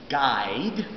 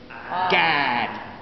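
First: The vowel glides as a diphthong. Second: The vowel is a flat monophthong. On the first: "Southerners don't say guide because they don't say the diphthong I" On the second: "They say instead"

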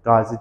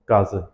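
First: The final vowel is a front 'i' sound. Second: The final vowel is a back 'ı' sound. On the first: The speaker calls it wrong. "Qazi deyil" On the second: The speaker calls it right. "qazıdır"

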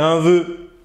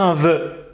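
First: The vowel is closed, unlike in œuf. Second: The vowel is open, as in œuf. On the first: The speaker calls it right. "on va dire un vœu. C'est une exception" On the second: The speaker calls it wrong. "On va pas dire un vœu"

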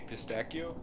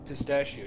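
First: The word has an Italian-style pronunciation. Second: The word has an ordinary English pronunciation.

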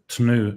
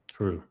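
First: The T is followed by an N sound. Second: The T is followed by an R sound. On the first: "instead of tnu" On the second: "we say true"

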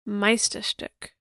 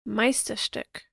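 The two takes are said the same way.

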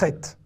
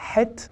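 First: It starts with the modern Hebrew ch sound. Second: It starts with a throaty h, as in Arabic. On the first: This is how the letter is said today. "Mais en hébreu moderne, on dit chet" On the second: This is how the letter was said in the past. "Autrefois, euh, cette lettre se prononçait comme euh, en arabe, ha"

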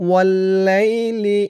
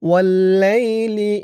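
Both takes have the same delivery.

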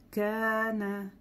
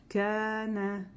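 First: The first vowel sounds like 'a'. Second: The same.

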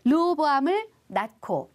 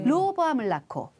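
First: The words are said apart with a clear n. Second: The words are joined, the n sounding like l. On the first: The speaker calls it wrong. "이렇게 말하지 않아요" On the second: The speaker calls it right. "듣기도 좋고 발음하기도 쉽죠"

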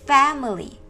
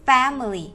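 The two takes are said the same way.

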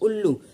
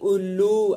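First: The first vowel is short and relaxed. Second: The first vowel is drawn out long. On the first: The speaker calls it right. "ऐसे बोलते हैं उल्लू" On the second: The speaker calls it wrong. "ऐसे नहीं बोलेंगे उल्लू"

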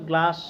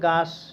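First: The l sound is pronounced after the g. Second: The l sound is left out entirely. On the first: "কেউ কেউ গ্লাস" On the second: "ছোটো বাবুরা অনেকে বলবে গাস, ল উচ্চারণ করতে পারবে না"

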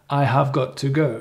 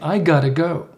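First: Every word is said fully and separately. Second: The words are reduced and run together. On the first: The speaker calls it wrong. "most people wouldn't say that" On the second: The speaker calls it right. "You say"

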